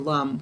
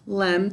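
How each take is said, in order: First: The syllable has a weak, reduced uh vowel. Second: The syllable has a clear, full e vowel. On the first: This is how the word is said in normal speech. "we say lum when we're speaking" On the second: This is how the word is said for spelling it. "this we say lem"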